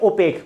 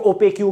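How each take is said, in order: First: The word ends with a plain k sound. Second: The word ends with an added kyoo sound. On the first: "इसको ऐसे pronounce करेंगे ओपेक" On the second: "कुछ लोग ओपेक्यू बोलते हैं इसको"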